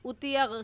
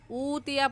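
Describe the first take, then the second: First: The first vowel is cut short. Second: The first vowel is drawn out long. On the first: The speaker calls it wrong. "ये गलत है" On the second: The speaker calls it right. "ऊतिया को भी खींचेंगे"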